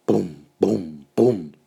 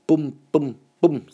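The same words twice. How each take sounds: First: Lautes kindliches Bum bum bum; Paukenschläge nachgemacht. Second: Höher und lauter Bum bum bum; Paukenschläge nachgemacht. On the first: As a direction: trommeln mit der Stimme. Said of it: "macht er". (Kind macht die Pauke nach: laut „Bum, bum, bum“) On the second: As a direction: die Pauke mit der Stimme spielen. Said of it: "kann nur „Bum, bum, bum“ sagen". (Kind ruft höher „Bum, bum, bum“) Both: Acted.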